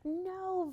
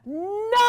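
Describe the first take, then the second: First: It is said quietly. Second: It is said loudly and strongly.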